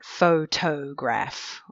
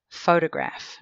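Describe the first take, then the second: First: Every syllable is said carefully with full vowels. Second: The unstressed vowel is reduced to a weak schwa. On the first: The speaker calls it wrong. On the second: The speaker calls it right. "the vowel is pronounced like a schwa. It's pronounced weakly"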